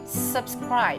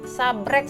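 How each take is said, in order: First: The word is said in full with every sound. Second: The word is clipped to two short syllables. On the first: The speaker calls it right. "Yang benar itu subscribe" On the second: The speaker calls it wrong. "Ini salah teman-teman"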